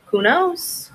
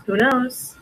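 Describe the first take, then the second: First: High sing-song shrug. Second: Said in the usual way. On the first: Real, not acted. Shrugging at mystery mug.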